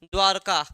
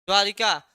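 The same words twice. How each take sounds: First: द्वारका said without the i, dwar-ka; द्वारका as two syllables; correct form. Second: द्वारिका said with an extra i, dwa-ri-ka; द्वारिका as people wrongly say it; wrong form. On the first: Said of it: "क्या हो जाएगा?". (सही उच्चारण: द्वारका, बिना इ के) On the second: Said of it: "गलत है।". (गलत उच्चारण: द्वारिका, र के बाद इ) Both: Shown as a demonstration.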